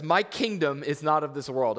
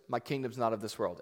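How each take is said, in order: First: Proclaimed loud, MY leaned on. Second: Said in the usual way. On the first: Shown as a demonstration. Preacher declaring Jesus' words to the congregation, loud and firm. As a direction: ring it out like a declaration. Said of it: "I love that". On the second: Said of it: "He goes".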